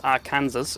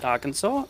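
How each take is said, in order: First: The ending sounds like the word Kansas. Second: The ending does not sound like Kansas. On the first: The speaker calls it wrong. "who I used to pronounce as Arkansas until I got a lot of hate for it" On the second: The speaker calls it right. "They pronounce it Arkansas"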